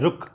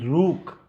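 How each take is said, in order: First: The u vowel after r is short. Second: The u vowel after r is long. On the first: The speaker calls it right. "छोटा रू क्यों होगा? क्योंकि होता है रुक" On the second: The speaker calls it wrong. "ना कि रूक"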